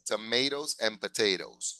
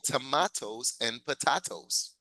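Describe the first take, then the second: First: It is said with an American accent. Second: It is said with a British accent. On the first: "In the United States" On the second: "in England, they say"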